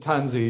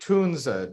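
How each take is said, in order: First: The name ends in an English 'ee' sound. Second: The name ends in a German 'a' sound. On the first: This is the accepted pronunciation among English speakers. "the accepted English pronunciation is Tunzi" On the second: This is how German speakers say the name. "Germans say Tunza"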